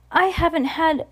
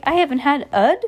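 First: Said in the usual way. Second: Puzzled, raised question; confused at the odd word; puzzled reading. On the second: Real, not acted. Reader puzzling aloud over a misprint in the book, confused.

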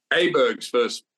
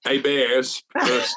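First: Said in the usual way. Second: Aberg's said AY-bear-z, with no G, slowly; Aberg's drawn out as AY-bears, the French style; new pronunciation, slow. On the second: Shown as a demonstration.

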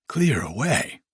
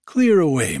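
First: "Clear away?" rising at the end in wonder; questioning echo. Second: Louder, higher jovial order falling at the end; hearty cry. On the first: Narrator echoes Fezziwig's order, "Clear away?" as rising question. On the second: Fezziwig orders the room cleared, hearty cry. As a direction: call out a cheerful command. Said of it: "cried old Fezziwig". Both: A narrator's reading.

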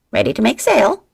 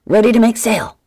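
First: Loud, higher squawking parrot echo; the parrot mimicking the order. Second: Loud, higher bellowed order. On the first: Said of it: "Checkmate squawked". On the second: Acted. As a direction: bellow it across the ship. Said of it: "Then he bellowed".

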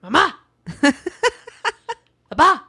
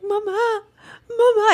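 First: Short, high demand in imitation of a toddler; authoritative toddler. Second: High-pitched imitation of a toddler's wail; mock crying. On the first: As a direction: mimic a little kid giving orders. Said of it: "It's more like". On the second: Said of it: "it's not even, like, crying like".

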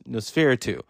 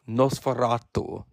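First: Nosferatu said quickly, flattened to nos-fer-TOO; the everyday American way to say Nosferatu; plain American Nosferatu. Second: Nosferatu said the foreign way, NOS-fe-RA-tu with a rolled, open vowel; Nosferatu with an accent. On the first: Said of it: "or if you would say Nos-, Nosferatu". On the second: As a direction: give Nosferatu a continental accent. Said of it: "I have to say it with the accent". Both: Shown as a demonstration.

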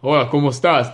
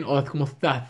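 First: "estás" with clear S sounds, louder; unlisped S. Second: "estás" with TH for each S; lisped Spain Spanish. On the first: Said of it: "The opposite". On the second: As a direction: lisp the S sounds in "estás". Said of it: "So they speak like this". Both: Shown as a demonstration.

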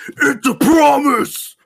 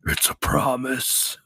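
First: High, drawn-out theatrical yell; loud acting voice. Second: Slow, drawn-out promise; acting voice. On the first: Shown as a demonstration. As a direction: belt it out slowly like a hammed-up actor. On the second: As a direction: say it slowly as a put-on threat. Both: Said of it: "your acting voice".

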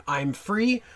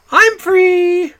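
First: Said in the usual way. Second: High, loud, camp sing-song I'm free; loud, high camp I'm free as Mister Humphreys; campy catchphrase. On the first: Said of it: "Mister Humphreys saying". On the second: Retold or imitated.

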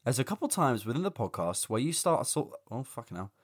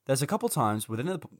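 First: Tired, hungover reading. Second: Hungover, losing the line. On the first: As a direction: read it through a hangover. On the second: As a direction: stumble through it hungover. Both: Real, not acted. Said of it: "I'm so hungover".

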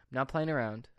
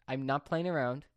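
The two takes are said the same way.

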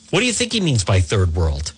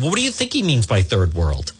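First: "you" pushed hardest, the pitch dropping lower; stress on you. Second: "he" pushed hardest in "what do you think he means"; stress on he. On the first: Host challenging a columnist again, stress on "you". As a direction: lean on "you" and drop the voice. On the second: Host challenging a columnist, stress on "he". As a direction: lean on "he" in the question. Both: Real, not acted. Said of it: "repeated rhetorical question".

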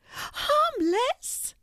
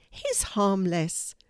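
First: Incredulous high squeak, rising at the end; tiny mouse, very high pitched; exclaiming mouse. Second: Said in the usual way. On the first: A narrator's reading. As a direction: squeak it back in disbelief. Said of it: "exclaimed the mouse".

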